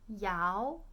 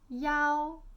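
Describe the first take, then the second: First: The tone rises. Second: The tone is high and level.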